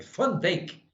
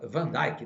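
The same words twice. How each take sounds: First: The name is said the Dutch way. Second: The name is said the English way. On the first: The speaker calls it right. "é o jeito correto de pronunciar o nome dele. Porque ele é holandês" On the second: The speaker calls it wrong. "Eles falam errado aqui"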